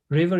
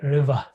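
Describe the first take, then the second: First: The final r sound is pronounced. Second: The final r sound is dropped.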